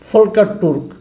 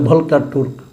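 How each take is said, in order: First: The first name begins with an F sound. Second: The first name begins with a V sound. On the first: "প্রথম আলো দেখি লেখে ফলকার Turk" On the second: "কেউ কেউ বলে ভলকার Turk"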